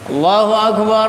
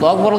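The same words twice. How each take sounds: First: It is said at a brisk, even pace. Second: It is said very fast and hurried. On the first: The speaker calls it right. "Enggak usah panjang-panjang. Jadi cepat" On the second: The speaker calls it wrong. "Giliran komat cepet-cepet banget"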